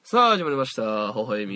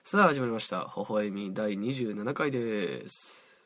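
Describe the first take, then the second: First: It is said in a loud voice. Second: It is said in a quiet voice.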